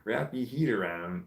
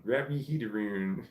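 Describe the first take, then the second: First: HEAT as "heed", AROUND left standard, lightly Scottish; attempted Scottish accent. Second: "heed aroon" with Scottish vowels; Scottish accent. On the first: Reading a chatter's phrase, halfway Scottish accent. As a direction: try Scottish "heed" for head only. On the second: Retrying a chatter's phrase, fuller Scottish accent. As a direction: go Scottish on both HEAT and AROUND, as "heed aroon". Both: Shown as a demonstration. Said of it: "This is a hard accent".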